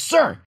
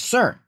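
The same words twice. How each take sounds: First: It is said very loudly. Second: It is said louder than normal.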